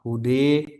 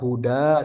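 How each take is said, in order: First: The final vowel is tilted close to e. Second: The final vowel is a plain open a.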